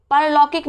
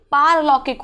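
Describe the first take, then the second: First: परलौकिक with a short first a, parlaukik; परलौकिक as par-lau-kik; परलौकिक, छोटे अ के साथ; wrong pronunciation. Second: पारलौकिक with a long first a, paarlaukik; पारलौकिक as paar-lau-kik; पारलौकिक, बड़े आ के साथ; correct pronunciation. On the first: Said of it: "परलौकिक नहीं". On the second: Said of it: "पारलौकिक होता है". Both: Shown as a demonstration.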